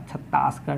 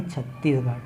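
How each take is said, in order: First: छत्तासगढ़ with a long aa in the middle; mispronounced छत्तासगढ़, demonstrated as wrong; wrong pronunciation. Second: छत्तीसगढ़ with a clear long ee; teacher models छत्तीसगढ़ with a clear ee; correct pronunciation. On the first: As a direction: say छत्तासगढ़ as the common mistake. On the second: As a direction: correct the mistake by saying छत्तीसगढ़ with ee. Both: Shown as a demonstration. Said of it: "छत्तासगढ़ नहीं".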